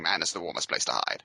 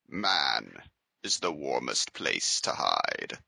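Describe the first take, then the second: First: The line is read really fast. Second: The line is read at a slower pace.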